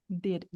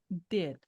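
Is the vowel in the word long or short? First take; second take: short; short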